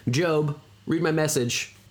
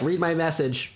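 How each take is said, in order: First: Slow, stiff computer voice; robot voice. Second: Robot voice. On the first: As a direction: read it like a phone assistant. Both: Retold or imitated. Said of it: "a computer voice say it".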